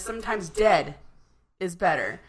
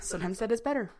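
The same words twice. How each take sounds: First: It has a dramatic pause inside the line. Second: It is said straight through with no pause.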